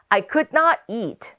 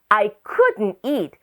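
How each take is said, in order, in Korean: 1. Could와 not은 각각 온전한 두 단어로 말해요. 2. Could와 not은 붙여서 하나의 짧은 단어로 말해요. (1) "could not" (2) "짧게 줄일 수가 있어요. couldn't 라고 합니다"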